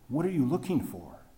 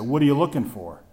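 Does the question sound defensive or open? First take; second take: open; defensive. First: The question sounds open and welcoming. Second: The question sounds defensive and suspicious.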